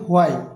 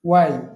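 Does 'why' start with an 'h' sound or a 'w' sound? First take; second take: h sound; w sound. First: The word begins with a breathy h sound. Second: The word begins with a plain w sound. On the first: The speaker calls it wrong. "আমরা বলি হোয়াই" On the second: The speaker calls it right. "শুদ্ধ উচ্চারণ হচ্ছে ওয়াই"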